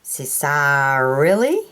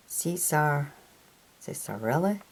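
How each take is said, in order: First: "Cisarilli" sounded out slowly, stretched through the middle; slow, full-voiced stab at "Cisarilli"; drawn-out name attempt. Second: "Cesar, Cisarilli" tried softly in pieces, rising at the end; soft, tentative second go at "Cisarilli"; unsure pronunciation. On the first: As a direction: stretch out "Cisarilli" with a rising, questioning end. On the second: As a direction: quietly test "Cesar, Cisarilli" as a question. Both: Real, not acted. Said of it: "I don't know how to pronounce that one".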